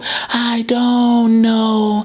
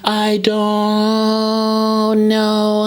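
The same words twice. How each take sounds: First: A low, warm whisper with a lowered larynx. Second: A high, bright whisper with a raised larynx. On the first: "if I bring my larynx down" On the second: "if I bring the larynx back up"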